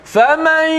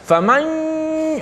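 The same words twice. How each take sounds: First: The sound is balanced between mouth and nose. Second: The sound goes mostly through the nose, strongly nasal. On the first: The speaker calls it right. "lima puluh lima puluh, sama banyak masuk ya dan masuk hidung" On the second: The speaker calls it wrong. "dia main hidung lebih pula"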